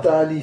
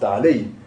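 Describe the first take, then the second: First: The vowel before the ending sounds like i. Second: The vowel before the ending sounds like a. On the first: The speaker calls it wrong. "C'est pas ta'ali, ça c'est khata" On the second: The speaker calls it right. "c'est ta'alei. La fatha reste"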